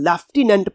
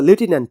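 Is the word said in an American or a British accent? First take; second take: British; American. First: It is said in a British accent. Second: It is said in an American accent. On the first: "British accent में पढ़ेंगे" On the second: "American accent पढ़ेंगे"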